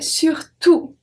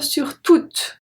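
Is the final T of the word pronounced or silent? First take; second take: silent; pronounced. First: The final T is silent. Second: The final T is pronounced. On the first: The speaker calls it right. "I say surtout, so we don't pronounce the T" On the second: The speaker calls it wrong. "Do I say surtout or sur toutes?"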